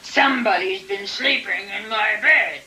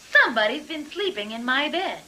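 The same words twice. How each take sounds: First: It is said in a big, gruff voice. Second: It is said in a middle-sized voice.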